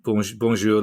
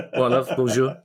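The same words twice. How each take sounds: First: Said in the usual way. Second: "Well, love, bonjour" in a mock South London accent, a little higher; a Cockney bloke greeting you in French, South London accent. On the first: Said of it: "if it's a South London accent". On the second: Shown as a demonstration. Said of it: "it depends if it's a South London accent".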